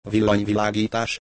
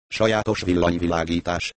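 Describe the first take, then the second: First: Startled echo, rising into a question; taken aback. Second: Said in the usual way. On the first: Acted. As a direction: repeat the word back in mild disbelief. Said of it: "hökkent meg".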